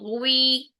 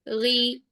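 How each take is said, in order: First: A w-like glide comes before the ee vowel. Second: The vowel is a plain ee sound. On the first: The speaker calls it wrong. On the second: The speaker calls it right.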